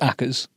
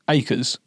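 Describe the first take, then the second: First: The first syllable rhymes with 'back'. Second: The first syllable does not rhyme with 'back'. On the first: This is how outsiders read the name. "any word that's got A C K is Ack" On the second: This is how the family says the name. "my family pronounce my name Akers"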